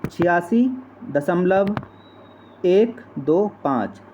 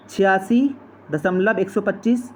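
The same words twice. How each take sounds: First: "एक दो पाँच" spaced out digit by digit, slow; correct reading. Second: "एक सौ पच्चीस" said as one whole number, run together; wrong reading. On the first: Teacher carefully modelling the correct decimal reading, slow with pauses. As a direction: read "छियासी दशमलव एक दो पाँच" with pauses between the parts. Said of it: "इसको कैसे पढ़ा जाएगा". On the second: Teacher showing students the wrong way to read it, said in one run. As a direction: say "छियासी दशमलव एक सौ पच्चीस" as the mistake to avoid. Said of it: "ना कि इसको ऐसे पढ़ा जाएगा". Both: Shown as a demonstration.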